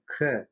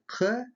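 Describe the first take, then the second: First: "К" made with the middle of the tongue; "К" further forward, not from the back. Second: "К" made with the back of the tongue; "К" as a voiceless burst from far back. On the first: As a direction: say a plain mid-palate "К". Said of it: "звук К является среднеязычным". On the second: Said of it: "заднеязычный". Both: Shown as a demonstration.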